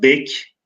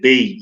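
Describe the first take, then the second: First: The word ends with a k sound. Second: The word ends with a y sound. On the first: This is the older historical pronunciation. "Osmanlı'da bek" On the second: This is the modern pronunciation. "günümüzde bey, y ile telaffuz edilirken"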